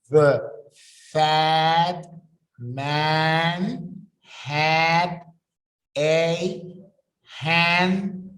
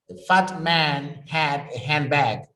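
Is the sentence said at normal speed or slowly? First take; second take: slowly; normal speed. First: It is said slowly. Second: It is said at normal speed.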